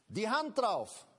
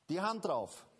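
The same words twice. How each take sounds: First: Louder, firm declaration of God's oath; "Die Hand drauf" with a strong fall on "Hand"; emphatic pledge. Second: Said in the usual way. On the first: Acted. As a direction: proclaim it like an oath. God's promise proclaimed.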